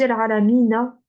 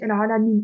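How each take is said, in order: First: The word ends with a short vowel a after n. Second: The word ends on the consonant n, no vowel. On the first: The full written ending is read out. "si vous regardez dans le Coran, on dit Al-Alamina" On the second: The reader stops at the end of the phrase. "Sur le noun à la fin, il y a comme un soukoun"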